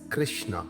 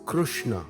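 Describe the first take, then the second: First: The vowel after k-r sounds like ri. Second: The vowel after k-r sounds like ru. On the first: This is how it is said in English. "commonly pronounced as Krishna using the vowel Ri" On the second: This is how it is said in Sanskrit. "pronounced as Krushna in Devanagari with the root sound Ru"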